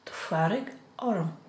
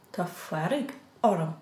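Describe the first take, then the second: No difference in how they are said.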